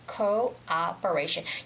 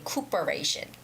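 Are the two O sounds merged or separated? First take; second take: separated; merged. First: The two O sounds are said separately. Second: The two O sounds run together as one. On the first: The speaker calls it right. "You have to separate those two O sounds" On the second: The speaker calls it wrong. "you do not say cooperation. That's wrong"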